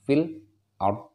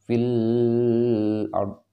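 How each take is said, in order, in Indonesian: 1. Lam langsung tersambung ke kata berikutnya. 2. Lam ditahan sebelum kata berikutnya. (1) "langsungnya fil ard" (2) "nggak boleh fil ard"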